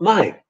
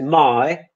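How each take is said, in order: First: The first part of the vowel is kept short. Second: The first part of the vowel is held long. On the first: The speaker calls it wrong. "this sounds very, very odd to an English ear" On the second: The speaker calls it right. "the first element in each diphthong is much longer than the second one"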